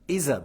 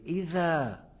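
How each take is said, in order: First: The middle consonant is a z-like sound. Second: The middle consonant is a soft th sound. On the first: The speaker calls it wrong. "C'est pas Isa" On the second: The speaker calls it right. "c'est Ida"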